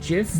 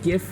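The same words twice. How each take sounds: First: It begins with a soft j sound. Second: It begins with a hard g sound. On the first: The speaker calls it wrong. "and not GIF" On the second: The speaker calls it right. "I pronounce it GIF ... because it stands for Graphics"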